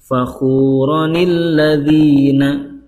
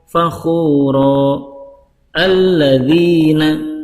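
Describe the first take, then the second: First: The words run together with an added n sound. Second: There is a stop between the words, no n. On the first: "Kalau di wasol" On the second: "Kalau di waqaf"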